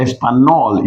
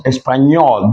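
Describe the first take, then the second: First: Espanol with a plain N, no NY; wrong plain N. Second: Espanol with NY in the last syllable; Spanish Ñ. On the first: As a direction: say Espanol as es-pa-NOL. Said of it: "That word is not Espanol". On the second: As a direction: say Espanol as es-pan-YOL. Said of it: "it becomes Espanol". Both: Shown as a demonstration.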